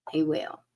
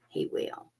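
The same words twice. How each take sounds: First: Said in the usual way. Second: Whispered. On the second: Real, not acted. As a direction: whisper it, unvoiced and soft. Whispered reassurance to client.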